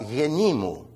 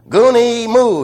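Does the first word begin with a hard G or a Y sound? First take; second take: Y sound; hard G. First: It begins with a Y sound and an ee vowel. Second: It begins with a hard G and an oo vowel. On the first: The speaker calls it right. "if you pronounce it the right way" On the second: The speaker calls it wrong. "what man would ever call his wife a goonie"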